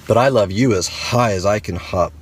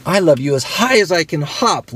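First: Smiling big hare. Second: Much higher, bouncy little bunny voice; playful little hare, pitched up; laughing little hare. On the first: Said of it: "smiled Big Nut Brown Hair". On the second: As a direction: call it out like a hare mid-hop. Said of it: "laughed Little Nut Brown Hair". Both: Acted.

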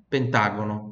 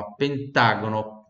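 First: Said in the usual way. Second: Pentágono in a slow Italian accent. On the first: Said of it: "Vai mudar só um pouquinho a pronúncia". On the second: Shown as a demonstration. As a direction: drag out pentágono like an Italian grandpa. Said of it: "puxar aquele sotaque italiano do nono".

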